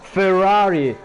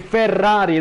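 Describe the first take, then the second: First: The name is said with an English pronunciation. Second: The name is said with an Italian pronunciation.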